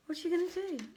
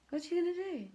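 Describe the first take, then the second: No difference in how they are said.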